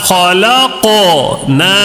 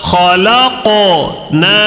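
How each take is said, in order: Both takes have the same delivery.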